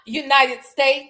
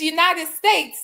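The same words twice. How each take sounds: First: The final s sound is dropped. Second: The final s sound is clearly pronounced. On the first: The speaker calls it wrong. "she cannot say S's at the end of words" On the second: The speaker calls it right. "It's United States"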